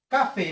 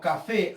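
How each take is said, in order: First: The stress falls on the first syllable. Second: The stress falls on the last syllable. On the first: The speaker calls it wrong. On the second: The speaker calls it right. "Aquí ya identifiqué, profesor, la sílaba tónica"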